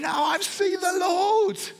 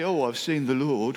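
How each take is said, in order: First: It is said with bubbling joy and energy. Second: It is said flatly, without excitement.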